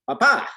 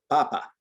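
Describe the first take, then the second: First: The stress is on the last syllable. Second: The stress is on the first syllable. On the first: It means dad. "this accent mark on top of it, and it means you need to shift the emphasis" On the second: It means potato. "the second to last syllable of a word is going to receive the emphasis"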